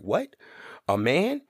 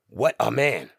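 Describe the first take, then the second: First: It is split after 'what' with shock. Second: It is said as one phrase.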